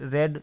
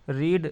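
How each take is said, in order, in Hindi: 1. स्वर छोटा है, 'red' जैसा। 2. स्वर लंबा है, 'reed' जैसा। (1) "सेकंड फॉर्म रेड है" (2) "रीड का उच्चारण चेंज हो जाता है"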